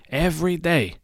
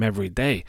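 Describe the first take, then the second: First: Every day said much higher, stress on Every. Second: Said in the usual way. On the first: Shown as a demonstration. Repeating Every day to stress it, higher. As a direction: lift and punch Every in Every day.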